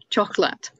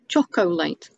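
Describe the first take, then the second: First: The word is said with two syllables. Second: The word is said with three syllables. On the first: This is how the word is normally pronounced. "there are still two syllables" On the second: This is how the word is spelt, to help with spelling. "I would sound it out chocolate"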